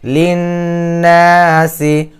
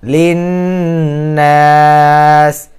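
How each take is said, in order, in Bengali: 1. শব্দটি হ্রস্ব i স্বরধ্বনি দিয়ে শেষ হয়। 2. শব্দটি s দিয়ে শেষ হয়, শেষে কোনো স্বরধ্বনি নেই। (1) "এখানে আছে লিন্নাসি" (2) "এখানে ওয়াকফ করে দিলাম"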